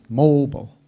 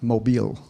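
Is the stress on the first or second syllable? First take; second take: first; second. First: The stress is on the first syllable. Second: The stress is on the second syllable. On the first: The speaker calls it right. "put the inflection on O" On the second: The speaker calls it wrong. "not mobile"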